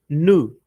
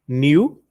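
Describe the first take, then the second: First: The vowel follows n with no glide. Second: A y glide comes before the vowel. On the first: "Direto no u" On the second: "Alguns americanos pronunciam new"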